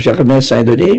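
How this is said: The name is said with French pronunciation.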